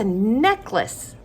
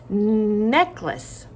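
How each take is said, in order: First: Said in the usual way. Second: Necklace with a long hummed "nnn" start; drawn-out first sound. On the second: Shown as a demonstration. Teacher isolating first sound for children, long N in Necklace. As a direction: hold the N of Necklace before finishing the word. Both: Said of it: "first sound is".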